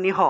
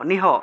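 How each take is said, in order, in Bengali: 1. ধ্বনিগুলো আলাদা আলাদা দল হিসেবে বলা হয়। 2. ধ্বনিগুলো আলাদা আলাদা দল হিসেবে বলা হয়।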